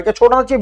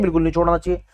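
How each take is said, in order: First: "क्या छोड़ना चाहिए" put as a question; rhetorical question. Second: "बिल्कुल नहीं छोड़ना चाहिए" low and much softer; dismissive answer. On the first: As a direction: pose "छोड़ना चाहिए" to the class before answering it. Rhetorical question, answered right after. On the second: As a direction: drop pitch and volume on "बिल्कुल नहीं". Answers own question, dropping away. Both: Shown as a demonstration.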